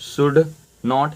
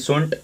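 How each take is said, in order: First: Two separate words, should and not. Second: One contracted word, shouldn't. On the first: "we शुड नॉट" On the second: "शुड के साथ नॉट मिला तो ये क्या बन गया, शुंट बन गया"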